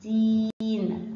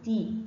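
First: Very slow, held ee in تين; lengthened ee. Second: Brief i vowel in تي; short kasra. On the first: Teacher shows the lengthened sound, long ee in تين. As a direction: stretch تين out long on the vowel. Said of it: "لما اطول صوتها يبقى ايه؟". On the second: Teacher contrasts short with long, brief vowel in تي. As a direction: keep تي short, without stretching it. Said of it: "لما يكون تحتيه كسره صوته تي". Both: Shown as a demonstration.

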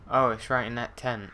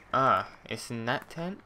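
First: Said in the usual way. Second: Slower, doubtful question rising at the end. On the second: Real, not acted. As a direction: check it again, unsure.

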